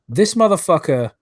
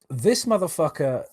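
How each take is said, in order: First: Loud, higher furious jab; real rage at the screenshot; angry outburst. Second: Simmering anger. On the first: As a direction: spit the insult out in real anger. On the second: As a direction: hold the anger in and let it simmer. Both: Real, not acted. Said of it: "I'm so angry I can't even speak".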